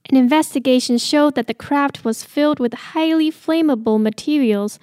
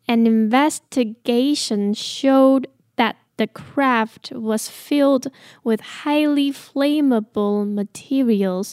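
First: The sentence is read at a normal pace. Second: The sentence is read at a slower pace.

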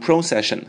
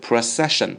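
First: The stress is not on the second syllable. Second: The stress is on the second syllable. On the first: The speaker calls it wrong. "不要念成procession" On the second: The speaker calls it right. "重音在ce 这里啊 ... 是procession"

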